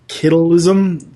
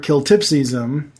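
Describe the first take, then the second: First: The word has a 'tle' sound in the middle. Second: The word has a 'tips' sound in the middle. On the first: The speaker calls it wrong. "it's wrongly pronounced as well as" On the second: The speaker calls it right. "the word that sends him back to his own dimension"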